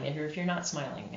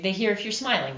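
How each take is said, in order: First: Quick, softer delivery without a smile; unsmiling voice. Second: Audible smile, quick and easy; smiling voice. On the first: Narrator showing that listeners hear no smile, unsmiling voice. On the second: Narrator showing that listeners hear a smile, smiling voice. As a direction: say it through a smile. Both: Shown as a demonstration. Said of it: "hear that in your voice".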